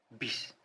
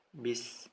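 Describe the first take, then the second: First: It is said with a heavy Javanese accent. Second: It is said plainly without a regional accent. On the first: The speaker calls it wrong. "terbawa logatnya ... medok" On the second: The speaker calls it right. "biasa ya, tidak tidak medok"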